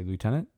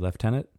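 First: It is said the American way, like lootenant. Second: It is said the Canadian way, like leftenant.

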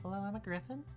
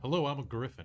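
First: It is said in a small, high voice. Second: It is said in a deep voice.

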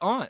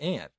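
First: The vowel keeps the sound of the letter U. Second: The word sounds just like 'ant'. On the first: The speaker calls it right. "It's aunt" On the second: The speaker calls it wrong. "It's not aunt"

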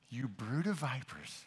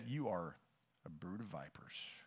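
First: It is said lightly, with a smile. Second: It is said sternly, without a smile.

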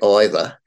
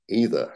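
First: The word sounds tight and squeezed out. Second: The word sounds open and comes out smoothly. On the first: The speaker calls it wrong. "try to say it that it doesn't squeeze out. So don't say either" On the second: The speaker calls it right. "Say either. It comes out smoothly"

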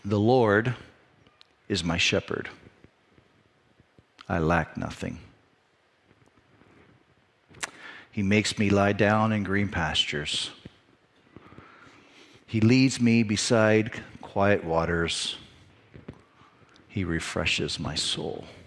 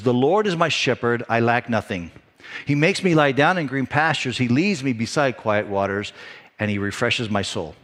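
First: It is read in a calm, unhurried way. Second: It is read in a tense, hurried way.

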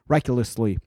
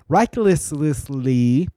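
First: The syllables run together into a mushy blur. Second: Each syllable is pronounced clearly and separately. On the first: The speaker calls it wrong. "or it's just mush. It sounds like" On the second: The speaker calls it right. "I have to say it that way so I can say it"

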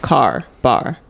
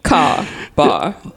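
First: It is said in an American accent with the R sounds. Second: It is said in an accent without the R sounds.

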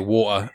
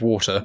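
First: It is said in a casual, working-class accent. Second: It is said in a posh, well-spoken accent.

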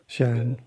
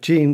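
First: The name is pronounced a non-English way. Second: The name is pronounced the English way. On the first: The speaker calls it right. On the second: The speaker calls it wrong.

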